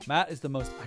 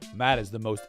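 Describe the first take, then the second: First: It is said in a strained put-on character voice. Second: It is said in a plain American voice. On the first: "if I keep doing this voice, it's gonna fucking kill me" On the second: "I'll do an American voice"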